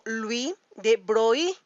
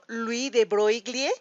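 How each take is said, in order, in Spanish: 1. Broglie se dice con sonido y en su lugar. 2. Broglie se dice con sonido g y l. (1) "se pronuncia más como" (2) "aunque pareciera que deberíamos pronunciarlo"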